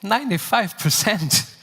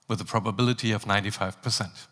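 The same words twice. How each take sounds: First: Incredulous question, pitched up; surprised. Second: Casual captain slipping it in, soft and fast; pilot announcement. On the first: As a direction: echo the number in disbelief. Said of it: "repeats the figure in disbelief". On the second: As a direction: breeze through the number like routine. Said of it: "listen to my voice coming over the speakers". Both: Acted.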